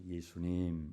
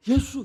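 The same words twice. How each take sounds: First: Low, soft 예수님, imitating elders; subdued, reverent elder's 예수님; elders' respectful address. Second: High, loud 예수, imitating young people; punchy, raised-pitch youthful 예수; youths' familiar address. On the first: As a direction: say 예수님 hushed and low like an older believer. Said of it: "어르신들은 예수님을 부를 때 "예수님" 이렇게 부르죠". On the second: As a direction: call out 예수 as to a friend. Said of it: "이렇게 불러야 돼요". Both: Shown as a demonstration.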